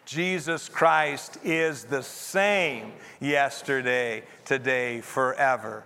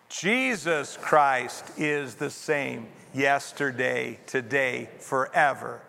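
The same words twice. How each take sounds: First: The stress is on the word same. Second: The stress is on the word Jesus.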